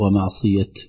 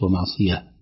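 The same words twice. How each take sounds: First: The word ends with a t sound. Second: The word ends with an h sound. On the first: The speaker calls it right. "نقف عليها بالتاء" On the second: The speaker calls it wrong. "وليست ومعصية كما يعني اعتدناها في إملائنا العادي"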